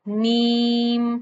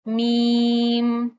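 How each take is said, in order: No difference in how they are said.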